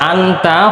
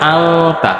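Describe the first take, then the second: First: A clear n sound comes before the t. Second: A hidden nasal sound comes before the t. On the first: The speaker calls it wrong. "লেখাটা ছিল আনতা" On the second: The speaker calls it right. "হয়ে যাবে আংতা"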